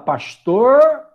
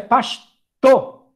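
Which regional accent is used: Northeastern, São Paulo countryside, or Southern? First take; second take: São Paulo countryside; Northeastern. First: It is said with a strongly curled R. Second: It is said in a northeastern Brazilian accent. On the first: "interior de São Paulo, fala pastor, o R é puxado" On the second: "aqui no Nordeste é pastor, T O"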